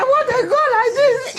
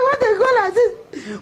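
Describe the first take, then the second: First: High, laughing cry of disbelief; half laugh, half wail; laughing retell. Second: A laughing sob, higher; crying retell. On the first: Mother retelling the station scene, laughing in disbelief. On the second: Mother retelling the station scene, half sobbing. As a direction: wail it through tears. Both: Retold or imitated.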